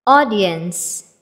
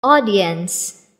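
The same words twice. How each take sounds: The two takes are said the same way.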